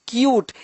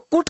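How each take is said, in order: First: A 'y' glide comes before the vowel. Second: There is no 'y' glide before the vowel. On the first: The speaker calls it right. "यू को यू पढ़ा" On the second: The speaker calls it wrong. "इसको कुट क्यों नहीं पढ़ते"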